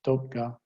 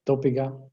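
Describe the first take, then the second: First: Dopga said in two syllables, dop-ga, no vowel between p and g; vowel dropped. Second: Dopiga said in three syllables, do-pi-ga, with the extra i; with epenthetic vowel. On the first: Linguist giving the shorter option, dopga, two syllables. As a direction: clip it to dopga with no middle vowel. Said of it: "or to just drop it". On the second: Linguist giving the fuller option, dopiga, three clear syllables. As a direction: say dopiga with the added vowel between p and g. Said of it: "You have a choice either to add that epenthetic vowel". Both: Shown as a demonstration.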